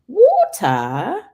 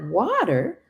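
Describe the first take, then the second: First: It is said with a British accent. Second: It is said with an American accent. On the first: The speaker calls it right. "Both the kids have British accents" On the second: The speaker calls it wrong. "it's not water"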